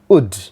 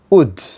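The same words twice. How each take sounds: First: The word is said fully with a clear w. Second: The word is said fully with a clear w.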